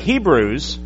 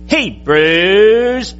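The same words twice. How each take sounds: First: The word is said at a normal length. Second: The word is stretched out and drawn long.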